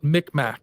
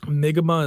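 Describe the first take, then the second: First: The name is said the anglicized way. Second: The name is said the native way. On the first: "Westerners uh, would call it Micmac" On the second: "Mi'kmaq is actually how you pronounce it"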